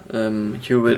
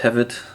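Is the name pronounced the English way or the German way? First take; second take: English; German. First: The name is said with an English pronunciation. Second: The name is said with a German pronunciation. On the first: "Hewitt im Englischen" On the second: "Im Deutschen sagen sie, glaube ich, oft Hewitt"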